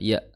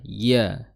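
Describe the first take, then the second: First: The syllable is said weakly without any pressure. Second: The syllable is said with force and pressure. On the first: This is the ordinary Indonesian sound. "iyanya Indonesia itu iya biasa ... tanpa ada ada tekanan" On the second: This is the Arabic letter's sound.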